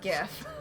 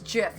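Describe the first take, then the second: First: The word begins with a hard g sound. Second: The word begins with a soft j sound. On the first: The speaker calls it wrong. "not GIF" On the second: The speaker calls it right. "It's Jif"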